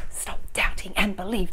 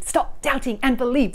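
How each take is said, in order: First: Unvoiced whisper, quick; whispered mantra. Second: Said in the usual way. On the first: Shown as a demonstration. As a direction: breathe the mantra softly. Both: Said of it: "couldn't that be a mantra for us".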